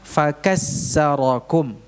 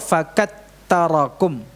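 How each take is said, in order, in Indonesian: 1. Konsonan ganda itu bunyi s. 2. Konsonan ganda itu bunyi t. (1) "mengganti atau merubah huruf tsa menjadi sin" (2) "atau ta"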